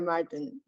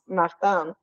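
First: The name is said with an English pronunciation. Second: The name is said with a French pronunciation. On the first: "A lot of people just go by Martin" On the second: "Martin in French, it's pronounced Martin"

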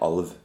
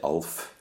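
First: The word ends with a voiced v sound. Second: The word ends with a voiceless f sound. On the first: The speaker calls it right. "then it's an alv" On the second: The speaker calls it wrong. "We don't say alf, because that's a boy's name"

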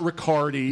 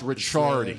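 First: The middle consonant is a hard k sound. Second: The middle consonant is a ch sound. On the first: The speaker calls it wrong. "It's not Riccardi" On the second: The speaker calls it right. "CC goes to a CH"

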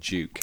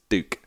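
First: Duke is said with a non-American pronunciation. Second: Duke is said with an American pronunciation. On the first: "Rather than Duke" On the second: "Ash is American, so he says Duke"

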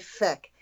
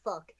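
First: The vowel rhymes with deck, an Irish accent. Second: The vowel rhymes with duck, a general accent.

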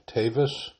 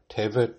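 First: It is said in Ashkenazi Hebrew pronunciation. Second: It is said in Sephardi Hebrew pronunciation.

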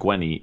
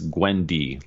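First: The middle d sound is left out. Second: The middle d sound is clearly pronounced. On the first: The speaker calls it wrong. "it's not like Gwenny" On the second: The speaker calls it right. "It's Gwendy, like Gwen and Wendy"

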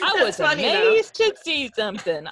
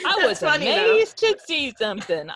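First: It is said in a put-on hillbilly accent. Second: It is said in a put-on hillbilly accent.

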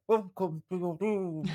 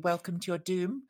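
First: It is said in a grainy, distorted voice. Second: It is said in a clear, normal voice.

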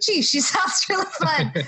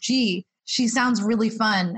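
First: It is said brightly, with lots of enthusiasm. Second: It is said flatly, with little enthusiasm.

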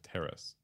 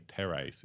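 First: The word is pronounced in the standard way. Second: The word is pronounced in a nonstandard way. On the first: The speaker calls it right. "instead of terrace" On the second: The speaker calls it wrong. "I used to say terrace"

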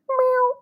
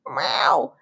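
First: It is a tiny, sweet cat sound. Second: It is a slightly angry cat sound.

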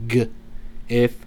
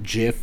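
First: The word starts with a hard g sound. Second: The word starts with a j sound. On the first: The speaker calls it right. "That's the proper pronunciation" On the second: The speaker calls it wrong. "GIF is a peanut butter"

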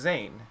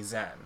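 First: The name is said with a long vowel. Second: The name is said with a short vowel. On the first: This is the form used by people in America. "the right way to say my name is Zane" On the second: This is the form the family uses. "everyone in my family has always called me Zen"

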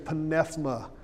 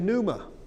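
First: The initial P sound is pronounced. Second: The initial P sound is silent. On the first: This is how the original Greek writers said it. "They would say pneuma" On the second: This is how it is said today. "We would make the P silent"

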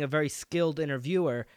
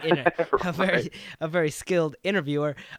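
First: The stress falls on the end of 'interviewer'. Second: The stress falls on the start of 'interviewer'.

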